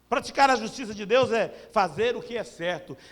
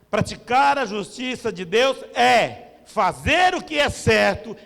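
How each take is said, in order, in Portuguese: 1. A frase é falada em ritmo normal. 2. A frase é falada muito devagar.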